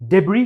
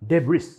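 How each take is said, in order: First: The word ends without an 's' sound. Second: The word ends with an 's' sound. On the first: The speaker calls it right. "English में इसे डेब्री कहते हैं" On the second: The speaker calls it wrong. "ना कि डेब्रिस"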